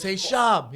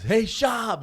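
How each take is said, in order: First: Loud, raised fan's holler; fan calling out. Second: Loud, high holler of a fan; fan calling out. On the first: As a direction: imitate a fan shouting hello. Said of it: "He goes". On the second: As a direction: imitate a fan yelling a greeting. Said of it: "the one guy goes". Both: Retold or imitated.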